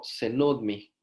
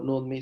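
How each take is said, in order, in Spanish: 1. La palabra empieza con la sílaba 'ce'. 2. La palabra empieza directamente con 'nu'. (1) "no tengan pena en pronunciar la C adelante de NUDMI" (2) "cuando alguien dice solo NUDMI se escucha bastante raro"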